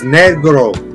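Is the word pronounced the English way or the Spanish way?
Spanish. The word has a Spanish pronunciation. The speaker calls it right. "It's Negro"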